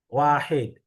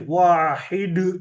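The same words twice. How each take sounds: First: The final d is released plainly, without echo. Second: The final d is released with an echoing bounce.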